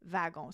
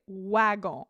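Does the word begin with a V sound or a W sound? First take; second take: V sound; W sound. First: The word begins with a V sound. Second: The word begins with a W sound. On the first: The speaker calls it right. "V is actually represented by a W" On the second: The speaker calls it wrong. "otherwise we're going to say wagon instead of"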